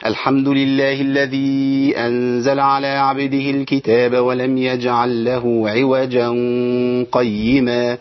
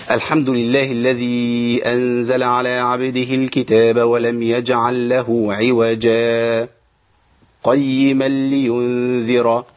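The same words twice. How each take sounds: First: Slow chanted verse, عوجا run straight into قيما with a hummed n; Quran recitation without sakt. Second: Slow chanted verse, silent pause after عوجا without breathing, then قيما; Quran recitation with sakt. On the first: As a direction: join عوجا to قيما with no pause, nasalised n between. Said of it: "أنا عملت إيه؟ حالة الإدغام". (تلاوة مرتلة بوصل عوجا بـ قيما مع الغنة دون سكت) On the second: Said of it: "يبقى أنا عملت سكت بدون إيه؟ تنفس". (تلاوة مرتلة بالسكت على عوجا دون تنفس) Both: Shown as a demonstration.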